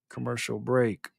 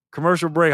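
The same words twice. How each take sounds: First: Slow, lower, softer announcer call; mock announcer. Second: Said in the usual way. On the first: Shown as a demonstration. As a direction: drawl it out like a radio announcer. Host repeats segment call in a voice.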